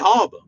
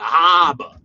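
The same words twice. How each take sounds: First: It is said in a New York accent. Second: It is said in a Boston accent. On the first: The speaker calls it right. "We just say harbor" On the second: The speaker calls it wrong. "They add like an extra R or something"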